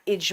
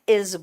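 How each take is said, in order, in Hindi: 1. इस शब्द का अंत j ध्वनि से होता है। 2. इस शब्द का अंत गूँजती हुई z ध्वनि से होता है। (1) "इज मत बोलना" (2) "इज बोलना"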